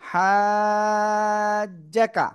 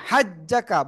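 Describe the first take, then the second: First: The first vowel is stretched for four counts. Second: The first vowel is short, not stretched. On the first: The speaker calls it right. "হাতে চার আলিফ টেনে পড়তে হবে" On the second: The speaker calls it wrong. "যারা বলতেছেন হাজ্জাকা ভুল"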